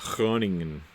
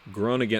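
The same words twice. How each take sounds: First: It starts with a breathy H-like sound. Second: It starts with a hard G sound. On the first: The speaker calls it right. "the G is not a G sound. It's like a H sound" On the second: The speaker calls it wrong. "Oh, sorry"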